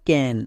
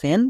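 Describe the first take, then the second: First: The word begins with a k sound. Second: The word begins with an s sound. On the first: The speaker calls it right. "তাহলে CAN কি হলো? ক্যান।" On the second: The speaker calls it wrong. "একে আমরা ভুল করেও স্যান বলবো না, অনেকে ভুল উচ্চারণ করে"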